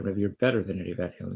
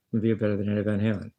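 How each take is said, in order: First: Quick retold quote, leaning on "better"; stress on better. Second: Said in the usual way. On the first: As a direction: put the emphasis on "better". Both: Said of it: "she put the emphasis on better".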